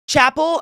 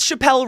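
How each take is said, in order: First: The name is said like the everyday word 'chapel'. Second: The name is said like 'Chappelle', ending in 'elle'. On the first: The speaker calls it right. "It's Chapel, not Chappelle" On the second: The speaker calls it wrong. "I said it wrong again"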